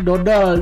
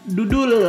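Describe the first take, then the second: First: The vowels are pronounced as o sounds. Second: The vowels are pronounced as u sounds.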